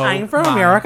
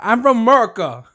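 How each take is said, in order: First: It is said with a stereotypical white American accent. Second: It is said with a Latino-sounding accent. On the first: The speaker calls it right. "that's a good one" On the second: The speaker calls it wrong.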